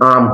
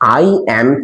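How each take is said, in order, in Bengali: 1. এটা একটি সংকুচিত শব্দাংশ হিসেবে বলা হয়। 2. এটা দুটি পূর্ণ শব্দ হিসেবে বলা হয়। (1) "এটাকে বলা হয় কন্ট্রাক্টেড ফর্ম অফ ভার্ব" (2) "এটা হচ্ছে পুরো ওয়ার্ডটা"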